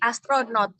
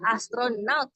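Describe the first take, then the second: First: The last syllable has a plain o vowel. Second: The last syllable has an au diphthong. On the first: This is the everyday, non-standard form. The speaker calls it wrong. "bentuk baku dari astronot" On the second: This is the standard form. The speaker calls it right. "adalah astronaut pakai au"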